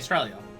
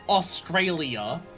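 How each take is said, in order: First: Some consonants in the word are dropped. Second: Every consonant in the word is clearly pronounced. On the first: "we miss consonants all the time" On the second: "we don't say Australia"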